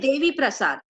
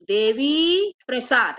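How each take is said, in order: First: The vowel after 'dev' is short. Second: The vowel after 'dev' is long. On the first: The speaker calls it right. "क्या बोलते हैं" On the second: The speaker calls it wrong. "ऐसे नहीं बोलते हम"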